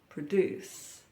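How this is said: It is said in an American accent. "In the U S, they say produce"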